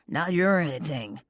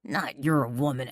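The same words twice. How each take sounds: First: "your" leaned on again, falling; "your" stressed with a falling tune. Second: "your" leaned on, falling; "your" stressed with a falling tune. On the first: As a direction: hit "your" in "Not your anything". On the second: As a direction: hit "your" in "Not your woman". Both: Acted. Rivals quarrel over her.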